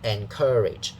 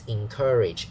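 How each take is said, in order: First: The first syllable begins with an 'e' vowel. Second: The first syllable begins with an 'i' vowel. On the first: The speaker calls it wrong. "a lot of Hong Kong people use n, like encourage" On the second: The speaker calls it right. "It's encourage"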